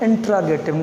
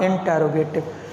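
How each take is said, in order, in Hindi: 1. 'r' के बाद का स्वर 'ah' जैसा लगता है। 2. 'r' के बाद का स्वर 'oh' जैसा लगता है। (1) "it's right and exact pronunciation is इंट्रागेटिव" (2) "not इंटेरोगेटिव"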